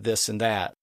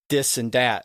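First: The words begin with a TH sound. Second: The words begin with a D sound. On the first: "instead of this and that" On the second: "all with a D at the end, at the beginning, instead of the TH sound"

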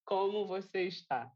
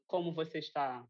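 First: The phrase is spoken very slowly. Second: The phrase is spoken quickly. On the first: "pronounce it very slowly" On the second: "Slow down"

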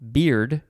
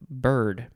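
First: The vowel is a long E, as in 'beard'. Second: The vowel is an R-colored 'ur', as in 'bird'. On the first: "I would have put like a long E sound" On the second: "but they wrote it bird"

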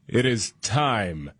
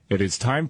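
First: It is read in a grand, sophisticated way. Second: It is read in a plain, ordinary way.

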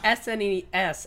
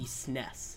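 First: Each letter is spoken separately. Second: It is spoken as one word. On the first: "Pronounce each letter, individual letter" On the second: "and not the SNES"

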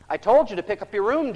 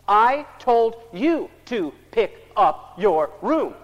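First: The sentence is said at normal pace and volume. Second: The sentence is said slowly, each word separated. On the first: "what do we say?" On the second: "So we get clever. ... Like he's having problems with words running together"

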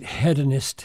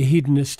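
First: It is said the Canadian way. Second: It is said the American way.

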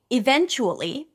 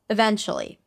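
First: The word is said fully, every syllable clear. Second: The word is said casually, with reduced syllables.

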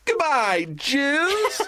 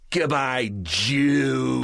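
First: It is said meekly, without menace. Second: It is said meanly, with menace.

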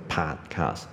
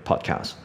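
First: It is said stiffly with big mouth movements. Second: It is said loosely with small mouth movements. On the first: The speaker calls it wrong. "嘴巴的动作不用那么大，不用那么刻意，不用那么硬" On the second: The speaker calls it right. "反正就是轻松一点"

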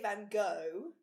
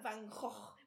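First: The name is said the American way. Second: The name is said the Dutch way. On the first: "In America they say Van Gogh" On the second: "the actual pronunciation is like Van Gogh"

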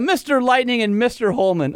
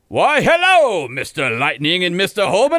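First: It is read in his own plain voice. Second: It is read in a Foghorn Leghorn voice.

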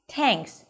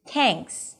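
First: The first sound is hard, with a tense tongue. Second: The same.

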